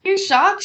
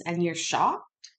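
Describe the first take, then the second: First: Much higher and louder, disbelieving "You're shocked?"; incredulous. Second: Slow, drawn-out "shocked" with a scornful rise; slow sarcasm. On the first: Commentator mocking the witness, loud high incredulous retort. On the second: Commentator needling the witness, slow drawn-out sarcastic rise. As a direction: stretch out "shocked" slowly, needling him with the rising end. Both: Real, not acted.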